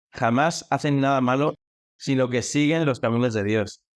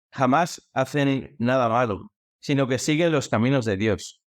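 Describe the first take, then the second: No difference in how they are said.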